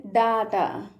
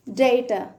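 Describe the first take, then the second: First: డాటా with long "aa", "DAA-taa"; second variant. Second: డేటా with "ay", "DAY-tuh"; first variant. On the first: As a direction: open the first vowel of డాటా to a long "aa". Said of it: "కొంతమంది ఎలా చెప్తారంటే". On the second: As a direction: say డేటా with a long e in the first syllable. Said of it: "కొంతమంది ఏమని pronounce చేస్తారంటే". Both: Shown as a demonstration.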